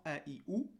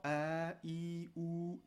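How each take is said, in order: First: "A, I, ou" said as short vowels. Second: "A, I, ou" with every vowel held long. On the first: Teacher listing what soukoun excludes, short vowels. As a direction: keep each of "A, I, ou" brief. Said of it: "sans voyelle courte". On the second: Teacher listing what soukoun excludes, long held vowels. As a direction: stretch out each of "A, I, ou". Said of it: "sans voyelle longue". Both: Shown as a demonstration.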